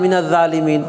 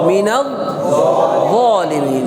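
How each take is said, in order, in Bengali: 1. z ধ্বনিটি একটি হালকা dh ধ্বনি। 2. z ধ্বনিটি একটি ভারী emphatic ধ্বনি। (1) "আবার কেউ জাল দি" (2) "জিমও না, জালও না"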